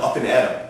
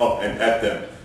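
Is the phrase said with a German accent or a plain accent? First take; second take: plain; German. First: Said in a plain accent, syllables linked smoothly. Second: Said in a German accent, each syllable separate. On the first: The speaker calls it right. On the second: The speaker calls it wrong.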